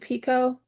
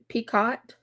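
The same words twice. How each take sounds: First: The final T is silent. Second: The final T is pronounced. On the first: The speaker calls it right. "I usually keep the the T silent when I do picot" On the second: The speaker calls it wrong. "but it might be picot"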